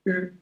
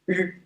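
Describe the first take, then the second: First: The r is pronounced as the English r. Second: The same.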